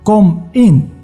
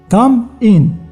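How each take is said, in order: First: The vowel in 'come' sounds like 'o'. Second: The vowel in 'come' sounds like 'ah'. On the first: The speaker calls it wrong. "لا" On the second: The speaker calls it right. "تخيل معايا هذيك الاو في بلاصه تاع ا"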